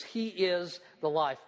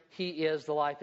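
First: Said in the usual way. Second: He IS the life, "is" leaned on; stress on is. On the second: Shown as a demonstration. Preacher explains present tense, stressing "is". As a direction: press the word "is" for present tense. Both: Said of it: "Present tense".

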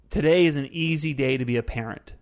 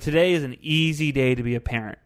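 First: Said in the usual way. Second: Sarcastic mimicking of a smug poster; mocking sing-song imitation. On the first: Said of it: "I saw someone who was like". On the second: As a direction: parrot it back in a mocking voice. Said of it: "It's like".

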